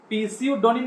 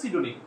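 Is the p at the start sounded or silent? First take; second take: sounded; silent. First: The word starts with a sounded p. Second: The word starts without a p sound. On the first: This is a memory aid for the spelling. "প্রথমে পি দেয়া আছে তাহলে এটা আমাদের কিভাবে শিখতে হবে পিসিউ ডোনিম" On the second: This is the normal pronunciation. "মানে হচ্ছে সিডোনিম"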